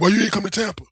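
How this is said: It is delivered in a hostile, threatening way. The question is read as a threat. The speaker calls it wrong. "how he read it was like this"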